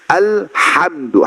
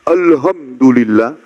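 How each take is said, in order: First: The h is airy, with breath pushed out. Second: The h is plain, without extra breath. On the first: All praise belongs to God. The speaker calls it right. "ha, keluar angin dari mulut" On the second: Death belongs to God. The speaker calls it wrong. "Kalau kita ganti menjadi ha"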